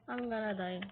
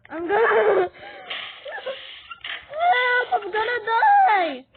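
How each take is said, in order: First: Low, soft afterthought; subdued and low; resigned. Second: High, loud game panic; frantic shout rising into a scream; panicked scream. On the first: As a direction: drop it right down, quietly. Same words after the scream. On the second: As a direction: shriek as if about to die. Panics in game, about to die. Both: Pretend.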